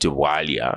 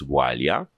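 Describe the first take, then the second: First: The name is said with an English-style pronunciation. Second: The name is said with its native pronunciation. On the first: The speaker calls it wrong. "It's not Walia" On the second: The speaker calls it right. "it's Walia. And it doesn't need to change just because you're speaking English"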